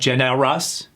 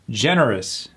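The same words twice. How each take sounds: First: The vowel before the R is fully pronounced. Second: The vowel before the R is dropped. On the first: The speaker calls it wrong. "It's not generous" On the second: The speaker calls it right. "remember that rule of sometimes killing the vowel before the R"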